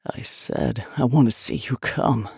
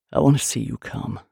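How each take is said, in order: First: Low, gasped male demand; gasping. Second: Low, controlled male voice; low demand. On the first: Man repeats his demand to his lover, gasping. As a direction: push the repeat out through gasps. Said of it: "he gasped". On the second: Man makes a demand of his lover, low. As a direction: state it low and steady. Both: A narrator's reading.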